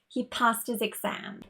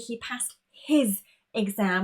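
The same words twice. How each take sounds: First: The h at the start of 'his' is dropped. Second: The h at the start of 'his' is pronounced. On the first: The speaker calls it right. "We would eliminate that H" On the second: The speaker calls it wrong. "Here we wouldn't say he passed his exam"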